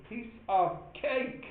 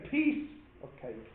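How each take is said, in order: First: "cake" stretched slowly with a rising tune; stress on cake. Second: "Piece" hit hard, the rest falling away; stress on piece. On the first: Teacher showing class the wrong stress on "cake". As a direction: lean on "cake", draw it out, lift it. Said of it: "They don't say". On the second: Teacher showing class the wrong stress on "Piece". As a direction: punch "Piece", let "of cake" drop. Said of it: "or they don't say". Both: Shown as a demonstration.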